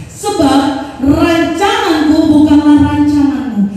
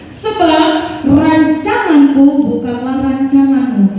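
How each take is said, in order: No difference in how they are said.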